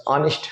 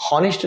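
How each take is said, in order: First: ऑनेस्ट said with no h sound, starting on an open o; honest, silent h. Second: हॉनेस्ट with a sounded h, as the wrong way; wrong h in honest. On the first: Teacher shows students ऑनेस्ट starts with a vowel, no h. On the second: Teacher shows students the wrong हॉनेस्ट with an h. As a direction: voice the h in हॉनेस्ट to show the mistake. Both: Shown as a demonstration. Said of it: "हॉनेस्ट नहीं पढ़ते हम".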